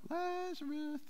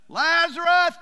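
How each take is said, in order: First: The name is said quietly and softly. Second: The name is shouted loudly.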